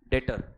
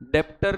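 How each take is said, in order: First: No B or P sound is heard mid-word. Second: A B or P sound is heard mid-word. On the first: The speaker calls it right. "बी is silent" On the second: The speaker calls it wrong. "डेप्टर नहीं, बी is silent"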